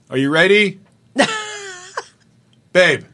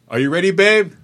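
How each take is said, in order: First: A separate pause comes before the final word. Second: The whole line runs together without a break. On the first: This is the speaker's own choice for the line. "So this is how I did it" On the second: This is how everyone else said the line. "So I know they're all saying it like this"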